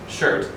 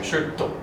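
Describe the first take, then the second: First: The word ends in a bare t sound. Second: The word ends with an added o vowel. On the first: "the American English pronunciation is shirt" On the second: "a natural inclination here would be to say shirto"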